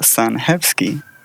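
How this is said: The surname is read with Polish pronunciation. "if you read it in Polish, it's"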